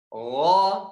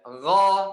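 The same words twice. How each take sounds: First: The vowel is rounded, like an o. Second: The vowel is open, a clear a. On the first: The speaker calls it wrong. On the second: The speaker calls it right.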